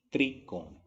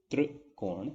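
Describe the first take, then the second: First: त्रिकोण with a clear "tree" start; plain i after tr in त्रिकोण; correct "त्रि" pronunciation. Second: त्रिकोण with a vibrating "trr" start; barely any i in त्रिकोण; wrong तृ pronunciation. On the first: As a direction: say त्रिकोण as "tri-kon". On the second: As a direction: say त्रिकोण as तृकोण. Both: Shown as a demonstration. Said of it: "ये difference होता है".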